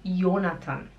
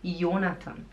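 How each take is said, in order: No difference in how they are said.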